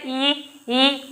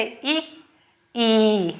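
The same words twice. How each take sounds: First: इ and ई said equally long; ई clipped as short as इ, no difference; इ, ई with no length contrast; same length, wrong way. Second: इ kept short, ई drawn out long; इ short, ई clearly lengthened; short vs long vowel. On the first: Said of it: "अगर हम दोनों एक जैसे पढ़ते हैं". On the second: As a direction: clip इ, then stretch ई. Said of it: "तो इनका बोलने का तरीका भी ऐसे". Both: Shown as a demonstration.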